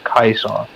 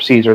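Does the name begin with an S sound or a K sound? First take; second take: K sound; S sound. First: The name begins with a hard K sound. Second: The name begins with a soft S sound. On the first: This is the old Roman way of saying it. "pronounced with a hard K" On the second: This is the usual modern way of saying it. "we mostly say it with the soft C"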